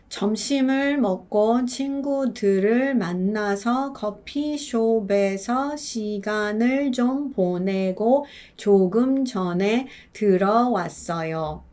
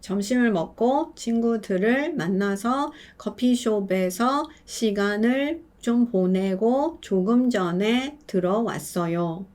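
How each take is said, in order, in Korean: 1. 문장을 조금 더 천천히 읽었어요. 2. 문장을 보통 빠르기로 읽었어요. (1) "연음을 한 상태로 더 천천히 읽어봐요" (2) "백 퍼센트의 분들이 이렇게 읽으세요"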